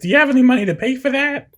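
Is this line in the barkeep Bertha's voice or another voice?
Bertha's voice. It is in Bertha's character voice.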